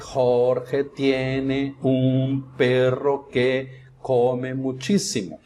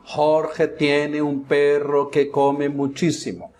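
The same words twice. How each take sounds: First: The sentence is said slowly, word by word. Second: The sentence is said at a normal pace.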